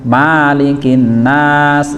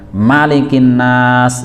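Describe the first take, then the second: First: The first vowel is said long. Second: The first vowel is said short. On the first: It means the owner of mankind. "Kalau bacanya panjang" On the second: It means the king of mankind. "yang merajai manusia"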